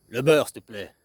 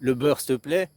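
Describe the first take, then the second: First: "Le beurre, s'il te plaît." said kindly with a falling tune; friendly ask. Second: "le beurre, s'il te plaît?" asked as a command; bossy order. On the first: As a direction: ask nicely for the butter. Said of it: "une fois, t'étais sympathique". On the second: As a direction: demand the butter. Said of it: "t'as ordonné, hein, agressif". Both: Shown as a demonstration.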